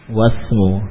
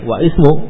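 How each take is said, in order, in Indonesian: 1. Vokal i dihilangkan, menyambungkan wa ke s. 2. Vokal i dibaca setelah wa. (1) "langsung ke sin ya" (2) "tidak lagi wa ismu"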